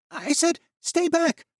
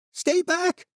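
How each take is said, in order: First: Very high, loud warning scream; a wounded boy screaming at them to stay back; furious shout. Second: Very high, loud shriek that cracks; a desperate boy screaming, voice breaking; panicked shriek with a cracked voice; cracking shriek. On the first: Acted. Jan repeating his threat. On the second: A narrator's reading. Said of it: "the boy shrieked, his voice cracking".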